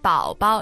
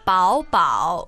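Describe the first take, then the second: First: The second syllable has a light neutral tone. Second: Both syllables carry a full third tone. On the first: The speaker calls it right. "the second becomes neutral" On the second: The speaker calls it wrong. "instead of saying 宝宝"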